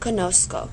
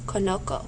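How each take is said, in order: First: The last syllable has a soft S sound. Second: The last syllable has a hard K sound. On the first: The speaker calls it right. "a soft C" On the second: The speaker calls it wrong. "That's a hard C sound in our last syllable"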